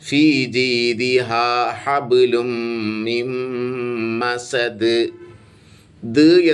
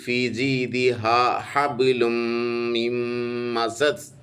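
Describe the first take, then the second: First: The final consonant is released with a bouncing echo. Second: The final consonant stops flat without echo. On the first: The speaker calls it right. "വ്യക്തമാക്കി ഓതണം. കുറച്ച് കട്ടി കൂട്ടിയിട്ട് പറയണം" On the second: The speaker calls it wrong. "എന്ന് ഓതാൻ പാടില്ല"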